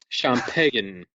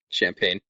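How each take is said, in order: First: The word has an exaggerated French pronunciation. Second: The word has a plain English pronunciation. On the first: "the French champagne" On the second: "you're not annoyingly pronouncing it champagne"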